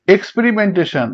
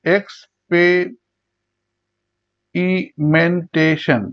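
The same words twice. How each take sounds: First: Said in the usual way. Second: experimentation very slowly in six beats; long pauses between syllables of experimentation. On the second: Shown as a demonstration. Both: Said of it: "ছয়বার উচ্চারণ করা হয়".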